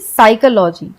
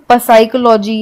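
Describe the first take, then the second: First: The word begins directly with an S sound. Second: A P sound is heard before the S. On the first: The speaker calls it right. "साइकोलॉजी को हम S से पढ़ते हैं" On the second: The speaker calls it wrong. "इसे हम पसाइकोलॉजी या फसाइकोलॉजी नहीं पढ़ेंगे"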